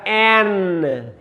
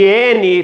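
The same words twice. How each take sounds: First: N said as English "en", slow; English letter name. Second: N said as "éne" with final vowel; Portuguese letter name. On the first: Teacher gives the English "en" slowly to students. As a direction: end on the N: "en". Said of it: "fica N". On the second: Teacher shows the Portuguese "éne" to avoid. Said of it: "Em vez de N". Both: Shown as a demonstration.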